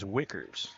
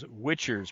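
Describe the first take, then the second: First: The middle consonant is a k sound. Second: The middle consonant is a ch sound. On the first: This is the name's actual pronunciation. The speaker calls it right. "I was told by the coach that it is Wickers" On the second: This is how others are saying the name. The speaker calls it wrong. "they're um, uh, pronouncing it as Witchers"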